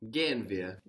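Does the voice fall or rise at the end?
fall. It is a suggestion, falling at the end. It proposes that we go. "You just have to change your tone"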